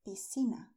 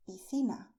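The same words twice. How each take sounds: First: Piscina with c as s; Latin American pronunciation. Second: Piscina with c as th; Spain pronunciation. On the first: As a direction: say piscina as "pi-see-na". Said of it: "In Latin America". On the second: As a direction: say piscina as "pi-thee-na". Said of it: "in Spain". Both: Shown as a demonstration.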